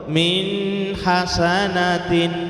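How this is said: The words come out in a deep belly voice. "Tidak boleh suara perut"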